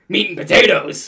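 It is said in an angry way.

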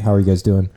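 It is read out flat and dry.

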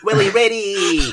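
The pitch swoops downward across the name. The speaker calls it right. "You need to say his name like you're going down a slide"

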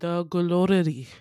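It is said with a Korean accent.

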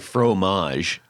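It is said with an English-speaking pronunciation. This is how the speaker's own people say it. The speaker calls it wrong. "Now we say fromage"

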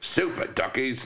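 It is read in a put-on British accent.

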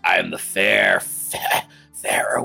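The voice is rough and raspy.

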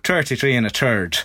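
It is said with a Dublin accent.

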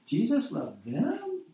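The voice rises at the end, questioning. It is hard to believe. "say it with a question mark"

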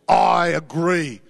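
It is said forcefully, with conviction.

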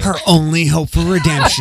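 It is read in a dramatic announcer voice.

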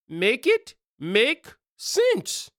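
It is said in a put-on accent.

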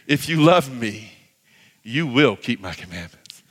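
It sounds like a warm promise.

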